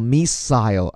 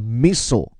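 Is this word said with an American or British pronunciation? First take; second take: British; American. First: It is said with a British pronunciation. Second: It is said with an American pronunciation. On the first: "英国人是发作missile" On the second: "在美音当中叫missile"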